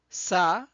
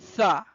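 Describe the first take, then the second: First: The consonant is a hissing s sound. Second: The consonant is a lisped th sound. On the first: "which sounds s or th" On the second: "in other accent, it could sound tha"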